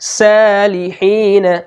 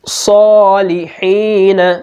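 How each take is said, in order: First: The first s sound is thin and light. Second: The first s sound is thick and heavy. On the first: The speaker calls it wrong. "अगर हमने सौद को बारीक पढ़ दिया ... तो ये गलत हो जाएगा" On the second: The speaker calls it right. "हमने सौद को पुर पढ़ा है, मोटा पढ़ा है"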